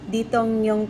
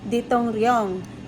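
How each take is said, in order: First: The sound after 'tong' is an n. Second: The sound after 'tong' is an r. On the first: The speaker calls it right. "hindi po yan Detongryong kung hindi Detongnyong" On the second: The speaker calls it wrong. "dahil sa sobrang kaba ko po, ang naisagot ko po is Detongryong"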